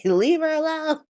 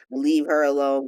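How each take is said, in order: First: High-pitched "leave her alone" wail; mock impassioned plea. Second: Said in the usual way. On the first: [name] defending [name] like the meme, mock impassioned. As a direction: plead for her in a hammed-up high voice. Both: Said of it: "the embodiment of the [name]".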